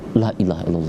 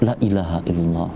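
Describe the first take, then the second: First: The vowel of the first word is long. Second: The vowel of the first word is short. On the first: It means there is no god except God. The speaker calls it right. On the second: It means truly there is a god except God. The speaker calls it wrong.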